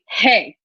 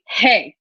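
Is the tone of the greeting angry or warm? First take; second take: angry; angry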